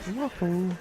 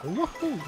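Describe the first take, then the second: First: It is said flatly, without enthusiasm. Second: It is exclaimed with lively, enthusiastic energy. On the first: "Unenthusiastic Wahoo" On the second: "So with enthusiasm"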